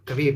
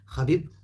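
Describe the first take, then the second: First: The name begins with a hard k sound. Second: The name begins with a rasping kh sound. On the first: This is how English speakers say it. "الإنجليزي شيء بعيد جدا، يقولون كبيب" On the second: This is how Russians say it. "هم يقولون خبيب"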